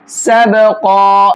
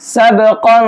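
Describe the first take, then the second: First: سبقا drawn out and stopped on the final قا; stopping form. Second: سبقا with hidden nasal ikhfa, run on; joined form. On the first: Teacher shows the pause form of سبقا. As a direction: recite سبقا slowly with a pause at the verse end. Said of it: "یہ سبقا اس صورت میں پڑھیں گے". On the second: Teacher shows the joined form of سبقا. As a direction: recite سبقا carrying on without stopping. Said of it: "تو پھر ہم ایسے پڑھیں گے". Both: Shown as a demonstration.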